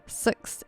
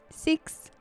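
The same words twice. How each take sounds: First: It is said with a New Zealand accent. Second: It is said with an Australian accent. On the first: "in New Zealand it's six" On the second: "Australians will say six"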